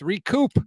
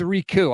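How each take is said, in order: First: The final P sound is clearly pronounced. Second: The final P sound is left silent. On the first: The speaker calls it right. "with the P" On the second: The speaker calls it wrong. "It's like the French version or something"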